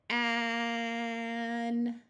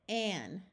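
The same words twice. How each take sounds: First: Held long and slow; stretched slowly. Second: Short quick blend; said fast. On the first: Teacher stretches the sound slowly for beginners. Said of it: "we will say it slow". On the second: Teacher blends the word quickly after holding it. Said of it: "then we will say it fast". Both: Shown as a demonstration.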